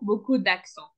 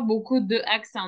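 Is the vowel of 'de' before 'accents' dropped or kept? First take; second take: dropped; kept. First: The vowel of 'de' is dropped before 'accents'. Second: The vowel of 'de' is kept before 'accents'. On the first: The speaker calls it right. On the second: The speaker calls it wrong.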